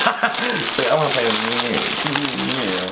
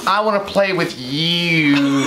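First: Very slow, low creepy voice; slow creepy whisper-voice. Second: Slow, creepy little voice; creepy doll voice. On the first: Host hamming the toy's line, slow and creepy. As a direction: stretch each word out, haunting. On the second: Quoting the toy's creepy line, slow creepy voice. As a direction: drag it out like a haunted toy. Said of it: "and then I say". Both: Retold or imitated.

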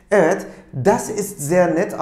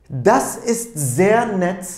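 First: Said in the usual way. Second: Slow, deliberate, every word clearly set apart; careful slow classroom demonstration; slow model reading. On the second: Shown as a demonstration. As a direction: model the phrase slowly for learners to copy. Teacher models the German phrase.

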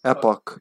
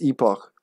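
First: "Epoch" with short E and hard K. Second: "epoch" with long E and soft ending. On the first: Real, not acted. Player corrected by a listener, hard-K epoch. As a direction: say "Epoch" as EP-ock, firm K. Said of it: "in English it's with K". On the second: Shown as a demonstration. Player explaining what they thought, long-E epoch. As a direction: say "epoch" as EE-pokh, between K and H. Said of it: "Like between K and H".

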